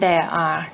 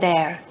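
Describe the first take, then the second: First: Both words are said fully and separately. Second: The two words blend into one reduced form.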